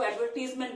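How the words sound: The word is said in a British accent. "British accent में इसको एडवर्टीजमेंट बोलते हैं"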